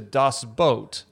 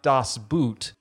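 First: Boot is said with a vowel like boat. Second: Boot is said with a vowel like boot. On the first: The speaker calls it right. "actually pronounced closer to Das Boot" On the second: The speaker calls it wrong. "not Das Boot"

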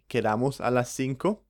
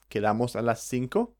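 First: The voice falls at the end. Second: The voice rises at the end. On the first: It states a plan to meet at five. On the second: It asks whether to meet at five.

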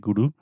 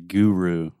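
First: It is said with a Brazilian accent. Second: It is said with an American accent.

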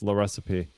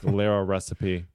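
First: The name starts with one syllable, 'La'. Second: The name starts with two syllables, 'Lara'. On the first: The speaker calls it right. "but it's La Recipe" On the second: The speaker calls it wrong. "I want to say Lara Recipe"

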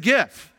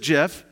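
First: The word begins with a hard G sound. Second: The word begins with a soft J sound. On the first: It names the animated image. The speaker calls it right. "This is a GIF" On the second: It names the peanut butter brand. The speaker calls it wrong. "It's peanut butter"

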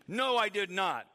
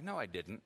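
First: It is said in a harsh, forceful tone. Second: It is said in a soft, gentle tone. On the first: The retelling exaggerates how the reply was said. The speaker calls it wrong. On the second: This is how the reply may really have been said. The speaker calls it right.

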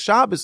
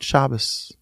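First: The word is shouted loudly. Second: The word is whispered softly.

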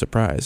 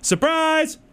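First: It is said plainly, not loud. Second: It is said louder, with excitement.

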